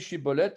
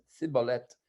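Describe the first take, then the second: First: The word begins with an 'sh' sound. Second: The word begins with an 's' sound. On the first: This is the form they were required to say. The speaker calls it right. "ils devaient prononcer chibolette" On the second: This reveals a speech defect, a lisp. The speaker calls it wrong. "Ils avaient un cheveu sur la langue et disaient cibolette"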